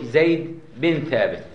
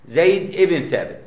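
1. تُنطق الكلمة الوسطى 'bin'. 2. تُنطق الكلمة الوسطى 'ibn'. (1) "خطأ شائع بتلاقي في الإذاعة" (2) "أكتب ابن لكن نرفض"

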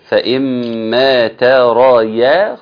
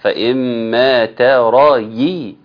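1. الياء عليها فتحة. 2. الياء عليها كسرة.

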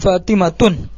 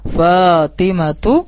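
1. Nama itu diakhiri bunyi n tambahan. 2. Nama itu diakhiri vokal u biasa. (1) "jangan Fatimatun" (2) "nama perempuan tidak kita tanwin"

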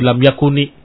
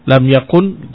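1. Kata terakhir berakhir dengan vokal i yang ditambahkan. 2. Kata terakhir berakhir pada konsonan n. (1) "Dia kasrah" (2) "Tadinya lam yakun"

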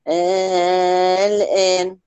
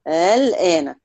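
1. الهمزة الثانية تصير ألفاً ممدودة. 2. الهمزة الثانية تُسهَّل، ولا تُنطق كاملة. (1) "والإبدال؟" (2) "لما تيجي تقرأيهم بالتسهيل"

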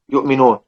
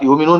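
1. في الكلمة همزة في الوسط. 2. ليس في الكلمة همزة في الوسط. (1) "فلان يقرا بالهمز" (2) "غيره يقرا"

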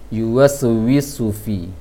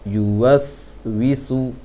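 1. Bunyi s pertama diberi pantulan. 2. Bunyi s pertama mengalir tanpa pantulan. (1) "itu yang sering terpantulkan"

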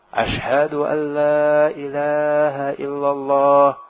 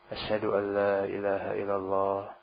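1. Frasa ini diucapkan keras, dengan suara tinggi. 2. Frasa ini diucapkan pelan, dengan suara rendah. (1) "Baru dikeraskan"

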